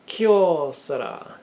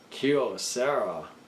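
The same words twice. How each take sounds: First: It is pronounced the Japanese way. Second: It is pronounced the English way.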